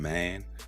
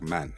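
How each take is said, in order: First: The vowel is long and stretched out. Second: The vowel is short and plain. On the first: "it can become man" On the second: "Take a word like man"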